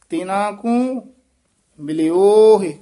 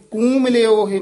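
First: ਤਿਨਾ ਕੂ as a unit, pause, then ਮਿਲਿਓ ਹੈ; correct pause placement. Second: ਕੂ ਮਿਲਿਓ ਹੈ run together quickly; no break between ਕੂ and ਮਿਲਿਓ; quick, higher ਕੂ ਮਿਲਿਓ ਹੈ in one unit; wrong joined reading. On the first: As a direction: break after ਕੂ, press on ਮਿਲਿਓ. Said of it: "ਕੂ ਮਿਲਿਓ ਹੈ ਨਹੀਂ ਕਹਿਣਾ". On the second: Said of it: "ਨਹੀਂ ਕਹਿਣਾ". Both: Shown as a demonstration.

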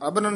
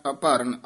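First: ਅਭਰਨ run together as abaran, higher and rising; the mistaken smooth ਅਭਰਨ with no break; wrong pronunciation. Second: ਅਭਰਨ said as a-paran, lower, with a falling end; correct pronunciation. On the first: Teacher mimics the student's wrong ਅਭਰਨ. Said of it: "ਨਹੀਂ ਕਹਿਣਾ". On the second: Teacher gives the student the correct ਅਭਰਨ. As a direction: say ਅਭਰਨ with the break after the first a. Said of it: "ਐੜੇ ਦੇ ਵਿੱਚੋਂ dash ਦੇ ਕੇ ਪਦ ਉਚਾਰਨ". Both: Shown as a demonstration.

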